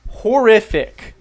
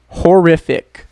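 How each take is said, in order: First: "Horrific" drawn out slowly and higher; slow emphatic repeat. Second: "horrific" said louder, falling at the end; loud announcement. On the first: Teacher repeating the new word for learners, slow and higher. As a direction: stretch out "Horrific" to let it sink in. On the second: Teacher presenting the second word for very bad, loud announcement. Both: Shown as a demonstration.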